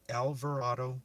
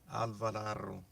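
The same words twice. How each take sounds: First: The name is said with an English pronunciation. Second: The name is said with a Spanish pronunciation. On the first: "In English, it's" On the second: "In Spanish, it's"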